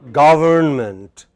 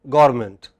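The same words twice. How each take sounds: First: Every sound in the word is pronounced. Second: A sound in the middle is dropped. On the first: The speaker calls it right. "How should it be pronounced?" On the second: The speaker calls it wrong. "But many people take this away"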